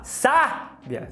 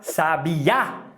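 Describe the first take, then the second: First: The stress is on the first syllable. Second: The stress is on the third syllable.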